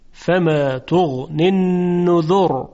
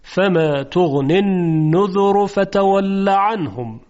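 First: النذر ending in a thick silent ر, tafkhim; heavy r at stop. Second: النذر joined to فتول with the ر still heavy; heavy r when joined. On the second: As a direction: run النذر into فتول, keep ر thick. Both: Shown as a demonstration.

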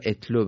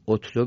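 First: اتلو begun with "e": etlu; kasra on alef. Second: اتلو begun with "o": otlu; damma on alef. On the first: Teacher offering the other reading, اتلو said "etlu". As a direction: open اتلو on a short "e" sound. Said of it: "یا اتلو بخونیم". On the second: Teacher offering students one reading, اتلو said "otlu". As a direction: open اتلو on a short "o" sound. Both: Shown as a demonstration.

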